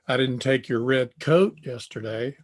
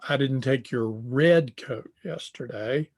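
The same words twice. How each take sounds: First: The stress falls on the word coat. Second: The stress falls on the word red. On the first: A different item was taken. "I took a sweatshirt" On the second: A coat of another colour was taken. "The one I took was blue"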